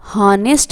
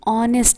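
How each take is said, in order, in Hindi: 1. यह शब्द एक सुनाई देने वाली H ध्वनि से शुरू होता है। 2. यह शब्द सीधे एक स्वर ध्वनि से शुरू होता है। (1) "हॉनेस्ट नहीं है" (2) "यहाँ पे एस साइलेंट है और ये आ का साउंड दे रहा है"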